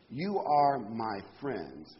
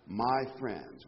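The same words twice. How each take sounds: First: Each word slow and weighted, YOU leaned on; slow emphasis. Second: "my" pressed, falling onto "friends."; stress on MY. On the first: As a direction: read "You are my friends." slowly and deliberately. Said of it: "I'm emphasizing the word". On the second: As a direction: lean hard on "my" in "my friends.". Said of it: "I'm emphasizing the word "my friends". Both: Shown as a demonstration.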